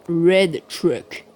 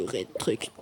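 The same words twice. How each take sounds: First: Showy English accent on "Red Truck". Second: Said in the usual way. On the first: Shown as a demonstration. Player boasts of their English, English accent. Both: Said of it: "Admirez mon accent en anglais".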